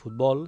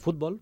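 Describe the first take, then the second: First: The stress is on the last syllable. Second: The stress is on the first syllable. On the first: This is the Catalan pronunciation. "aquest futbol és aguda en català" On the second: This is the Spanish pronunciation. "en castellà, per exemple, no ho és plana i es pronuncia futbol"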